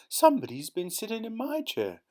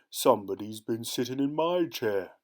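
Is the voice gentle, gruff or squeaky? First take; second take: gentle; gruff. First: The voice is gentle and soft. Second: The voice is deep and gruff. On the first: "in her gentle little voice" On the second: "in his deep, gruff voice"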